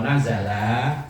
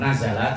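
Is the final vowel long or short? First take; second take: long; short. First: The final vowel is drawn out long. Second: The final vowel is short. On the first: Two came down. "kalau lahnya dibaca panjang itu berarti berdua" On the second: One person came down. "turun cuma satu orang"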